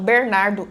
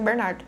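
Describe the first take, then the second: First: It is said with a countryside interior accent. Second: It is said with a standard, normal accent.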